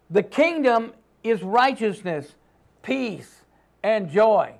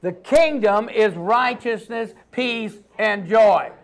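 First: Plain; teaching statement. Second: "peace, and joy" slowed and drawn out; slow repeat for the congregation. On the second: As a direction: say it slowly so they echo it. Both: Shown as a demonstration. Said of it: "Everybody say that".

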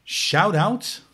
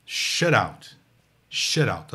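First: "Shout out" with the diphthong in both words, rising at the end; English shout out. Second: "shut out" with the short vowel of "shut", stressed and falling; English shut out. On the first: Teacher contrasts two phrases for musicians, clear "Shout out". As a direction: say "Shout out" loud and high like a greeting. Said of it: "a dica é essa aqui". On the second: Teacher sets the second phrase against the first, careful "shut out". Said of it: "E a segunda é shut out". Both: Shown as a demonstration.

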